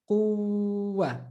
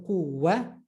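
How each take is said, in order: First: Quwwa with a long held uww; held waw. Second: Said in the usual way. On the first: Shown as a demonstration. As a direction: hold the ww in quwwa before the a. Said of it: "Just holding it before you say". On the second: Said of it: "Instead of quwwa".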